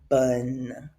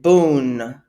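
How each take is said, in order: First: The vowel sounds like 'uh'. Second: The vowel sounds like 'oo'. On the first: The speaker calls it right. "Pronounce it rather bun" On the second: The speaker calls it wrong. "we're not going to pronounce it boon"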